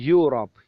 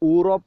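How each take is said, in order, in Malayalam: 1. ഈ വാക്ക് y ശബ്ദത്തിലാണ് തുടങ്ങുന്നത്. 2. ഈ വാക്ക് സാധാരണ സ്വരാക്ഷര ശബ്ദത്തിലാണ് തുടങ്ങുന്നത്. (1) "പകരം യൂറോപ്പ്. യ" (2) "പക്ഷെ അതിൻ്റെ ഉച്ചാരണം യൂറോപ്പ് അല്ല"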